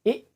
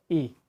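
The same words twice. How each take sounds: First: Short ई, cut off. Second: Soft ई, a touch quieter. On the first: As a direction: snap the ई short. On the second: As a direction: ease the ई out gently. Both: Shown as a demonstration. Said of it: "इस पे गौर करें".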